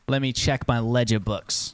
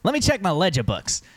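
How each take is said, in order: First: It is said in the soldier's voice. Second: It is said in the merchant's voice.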